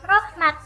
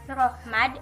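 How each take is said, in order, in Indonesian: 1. Vokal pertama adalah o; berakhir dengan t. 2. Vokal pertama adalah o; berakhir dengan d. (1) "ataupun rohmat" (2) "bukan rohmad"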